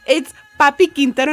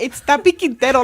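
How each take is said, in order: First: "Papi" with a clear P at the start. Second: "Tapi" with a clear T at the start; correcting her friend: "Tapi" with T. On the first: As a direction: say "Papi Quintero" beginning with a P. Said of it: "She's like". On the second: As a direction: say "Tapi Quintero" beginning with a T. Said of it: "Bro, it's not even that". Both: Retold or imitated.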